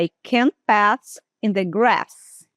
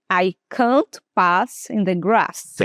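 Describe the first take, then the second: First: "grass" and "pass" with a short flat A, as the teacher usually says them; short American A. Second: "grass" and "pass" with a long open A, said slowly; long British A. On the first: Teacher to students, showing her own short A. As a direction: keep the A in "can't", "pass", "grass" short and quick. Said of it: "Eu falaria assim". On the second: Teacher to students, demoing the long A, slowly. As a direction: stretch the A in "can't", "pass", "grass" like a British speaker. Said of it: "de uma forma mais longa". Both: Shown as a demonstration.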